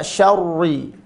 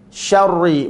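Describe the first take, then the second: The two takes are said the same way.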